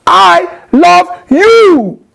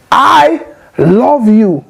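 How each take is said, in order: First: Much higher and louder, slow and cutting; harsh tone. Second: Gentle loving tone. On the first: Arguing with a spouse, a high, loud, slow I love you. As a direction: snap it at your spouse. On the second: To a spouse, a slow, tender I love you. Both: Shown as a demonstration. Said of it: "it's not the same thing as".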